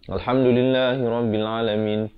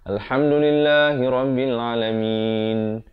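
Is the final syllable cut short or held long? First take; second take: cut short; held long. First: The final syllable is cut short and rushed on. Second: The final syllable is held long before stopping. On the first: The speaker calls it wrong. "Jangan kita tergesa-gesa sampai kita melanggar harakat. ... Itu salah" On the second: The speaker calls it right. "mestilah sekurang-kurangnya dua harakat di di akhir"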